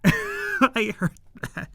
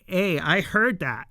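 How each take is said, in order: First: Slow mock indignation. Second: Said in the usual way. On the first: Fan replaying the offended character's comeback, slow and mock-indignant. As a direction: drag it out slowly in an offended put-on voice. Repeats the quote slowly after laughing.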